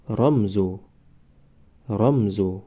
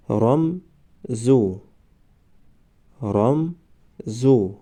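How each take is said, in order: First: Said in the usual way. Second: رمزو stretched very slowly, syllable by syllable; drawn-out demo. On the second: Shown as a demonstration. Teacher modelling the word for students, very slow. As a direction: draw out رمزو slowly for the class. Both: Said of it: "ما باید همان حرف را فقط آوازش را تلفظ کنیم".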